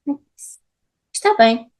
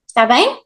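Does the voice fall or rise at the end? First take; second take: level; rise. First: The pitch stays level at the end. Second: The pitch rises at the end. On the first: It is a statement. "a statement is always stable" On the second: It is a question. "the last word, it goes higher"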